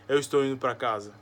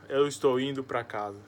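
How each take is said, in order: Both takes have the same delivery.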